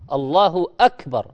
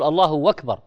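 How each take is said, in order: First: Akbar begins with a glottal stop. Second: Akbar begins with a w sound. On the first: The speaker calls it right. "بالهمزة" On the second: The speaker calls it wrong. "بعض الناس يقول الله أكبر بالواو وهي همزة"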